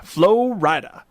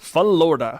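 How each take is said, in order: First: "Florida." stretched out slowly as FLOH-rye-da; drawn-out Florida. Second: Said in the usual way. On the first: Pretend. Host toying with the state name, drawing it out.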